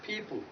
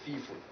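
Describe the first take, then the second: First: The word begins with a p sound. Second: The word begins with an f sound. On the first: The speaker calls it right. "The two lips come together to produce the sound pa and ba" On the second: The speaker calls it wrong. "you may mispronounce this sound by pronouncing it as fa or feeful"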